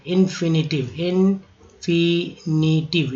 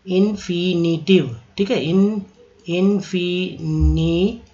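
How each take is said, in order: First: Slow spelled-out drill. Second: Teacher drawing out infinitive for students; slow syllable drill. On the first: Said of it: "तो याद रखिएगा टिव". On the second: Slowed teaching demo for the class. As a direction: stretch infinitive out slowly, syllable by syllable. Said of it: "कितना पढ़ेंगे? एक, दो, तीन, चार।". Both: Shown as a demonstration.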